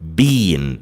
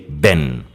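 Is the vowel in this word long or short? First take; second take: long; short. First: The vowel is long, like in 'seen'. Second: The vowel is short, like in 'pen'. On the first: "the British pronounce this word been. It's a bit longer" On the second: "they pronounce it a bit shorter. They say ben"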